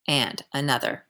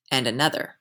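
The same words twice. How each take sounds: First: "and another" dropped down and softer to close the list; falling, fading tune. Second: "and another" lifted up at the end, still unfinished; rising tune. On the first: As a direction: let "and another" fall and fade, the list is done. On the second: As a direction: let "and another" hang with a rise, more to come. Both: A narrator's reading. Repeated phrase, rising then falling.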